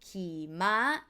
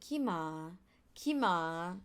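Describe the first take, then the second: First: The first syllable has a low, level pitch. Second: The first syllable has a high pitch. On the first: It means to ride a horse. The speaker calls it right. "you have to say" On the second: It means animal poop. The speaker calls it wrong. "key high tone"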